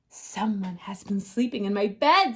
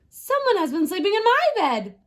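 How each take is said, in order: First: It is said in a great big voice. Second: It is said in a middle-sized voice.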